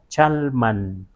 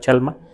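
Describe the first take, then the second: First: It ends with a final n sound. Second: It ends on a vowel with no final n. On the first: This is the local Nahuatl form meaning place. "sino Chalman, porque man indica lugar" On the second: This is the Spanish-adapted form. "en castellanizado Chalma"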